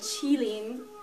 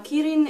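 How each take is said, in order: First: It starts with a ch-like sound and has an l. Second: It starts with a hard k and has an r. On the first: "it's actually called qilin, but like that's in the Mandarin tongue" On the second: "kirin is a Japanese pronunciation of the same exact word"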